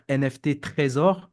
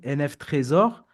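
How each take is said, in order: First: A separate letter T is spoken before Trésor. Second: The T of Trésor completes the letters directly. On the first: The speaker calls it wrong. "arrêtez de dire N F T Trésor" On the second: The speaker calls it right. "J'ai fait un jeu de mots N F Trésor"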